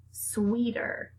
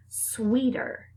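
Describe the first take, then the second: First: Whispered. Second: Said in the usual way. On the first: Shown as a demonstration. Teacher whispers the word to her speech class. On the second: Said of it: "Beginning blend".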